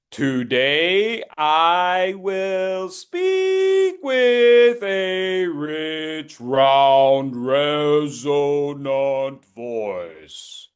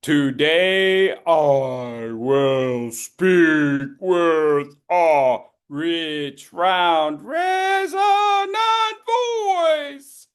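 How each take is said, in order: First: Slow, stretched words sliding up and down in pitch; pitch following a hand. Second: New pitch pattern. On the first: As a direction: glide the sentence up and down with the hand, very slowly. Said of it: "you're gonna go up and down with the pitch". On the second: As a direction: drag it out, shout round, then jump way up. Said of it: "I'm gonna change the pattern". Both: Shown as a demonstration.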